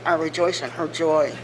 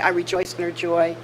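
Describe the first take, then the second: First: It is said grudgingly through gritted teeth. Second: It is said warmly and sincerely.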